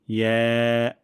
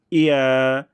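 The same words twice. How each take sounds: First: ইয়া as one smooth "ye"; light glide into ae in ইয়া; soft ya. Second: ইয়া stiffened into two beats, "i-a"; hard ya. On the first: Teacher showing correct letter, soft "ye" ইয়া. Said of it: "নরম করে আমরা উচ্চারণ করব". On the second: Teacher imitating a common mistake, hard "i-a" ইয়া. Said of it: "শক্ত করে ফেলেন". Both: Shown as a demonstration.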